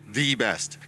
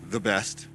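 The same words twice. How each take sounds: First: The word 'the' is said with strong emphasis. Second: The word 'the' is said plainly, unemphasized. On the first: It is singular and commanding, a higher standard. The speaker calls it right. "It's an accentuation. ... It's singular, it's commanding" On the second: It is just an ordinary description. The speaker calls it wrong. "not the best"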